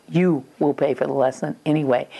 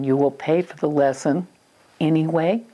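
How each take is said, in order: First: Firm stress on "You", falling to the end. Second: Said in the usual way. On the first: Retold or imitated. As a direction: lean on "You", then let "anyway" drop. Parent restates the rule, shifting emphasis.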